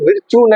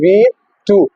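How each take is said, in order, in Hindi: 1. इसे अंग्रेज़ी शब्द virtue की तरह बोला जाता है। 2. इसे इतालवी तरीके से vee-too बोला जाता है, oo पर खत्म होता है। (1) "ये विर्च्यू नहीं है, मोस्टली हम इसको मिस प्रोनाउंस कर देते हैं" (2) "इटालियन लैंग्वेज का वर्ड है वी टू, जिसे हम कहते हैं वी टू"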